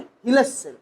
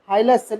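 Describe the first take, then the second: First: The first vowel sounds like 'ih'. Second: The first vowel sounds like 'eye'. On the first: "हाइलस या हिलस सेल्स आप लोग बोल सकते" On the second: "हाइलस या हिलस सेल्स आप लोग बोल सकते"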